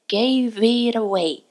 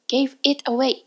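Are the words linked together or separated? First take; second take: linked; separated. First: The words run together into one linked phrase. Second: Each word is said separately with breaks. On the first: The speaker calls it right. "切るのではなくて" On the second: The speaker calls it wrong. "gave it away と切る"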